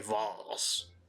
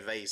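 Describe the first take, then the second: First: The word is said in a posh, affected way. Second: The word is said in an ordinary, everyday way. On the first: The speaker calls it right. "the way a pretentious person would pronounce it" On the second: The speaker calls it wrong. "I can't say vase"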